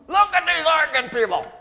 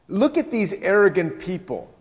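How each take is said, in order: First: It is said through a clenched mouth. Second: It is said in a normal reading voice.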